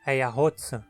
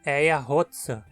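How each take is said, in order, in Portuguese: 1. O pronome é reduzido a um som de s puro. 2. O pronome é reduzido a um som de s puro.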